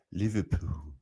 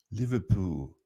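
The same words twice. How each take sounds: First: Liverpool said with a light Scouse lilt; attempted Liverpool accent. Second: Said in the usual way. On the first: Shown as a demonstration. Trying a Liverpool accent on the word Liverpool, lightly. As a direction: try Liverpool in a Scouse accent, half-hearted. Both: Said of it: "I can't even do that Liverpool accent".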